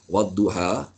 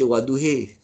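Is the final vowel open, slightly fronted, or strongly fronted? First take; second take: open; strongly fronted. First: The final vowel is a plain open a. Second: The final vowel is strongly fronted toward e. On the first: "kita baca qiraat Imam Hashim" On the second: "Wadduhi tu bacaan Imalah Kubra dia panggil"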